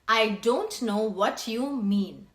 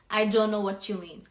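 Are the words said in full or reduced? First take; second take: full; reduced. First: Every word is said fully and separately. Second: The words are contracted and run together. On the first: "Instead of that" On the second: "you will say"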